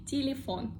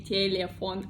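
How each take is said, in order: First: Telephone as Russian ti-li-FON; reduced-vowel pronunciation. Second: Telephone as Russian te-le-FON, clear "eh" vowels; wrong spelling pronunciation. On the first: Teacher giving learners the standard form, telephone as ti-li-FON. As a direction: say telephone in Russian with short "ee" sounds before FON. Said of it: "I say telephone". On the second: Teacher showing what to avoid, telephone as te-le-FON. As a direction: say telephone in Russian with full unreduced "eh" twice. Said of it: "I don't say telephone". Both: Shown as a demonstration.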